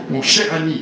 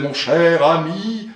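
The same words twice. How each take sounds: First: "Mon cher ami" compact, with a strong CH; crisp "Mon cher ami", no lingering on vowels; leaning on consonants. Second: "mon cher ami" with long, swollen vowels; old oratorical stretching of "mon cher ami"; leaning on vowels. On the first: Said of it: "appuyer beaucoup sur les consonnes". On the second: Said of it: "insistait beaucoup sur les voyelles". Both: Shown as a demonstration.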